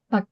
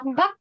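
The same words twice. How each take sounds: First: The word is said in a relaxed, ordinary way. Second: The word is said forcefully with a strong ending. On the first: The speaker calls it right. "Baknya santai aja. Bak biasa" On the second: The speaker calls it wrong. "Nggak usah bak, gitu nggak perlu"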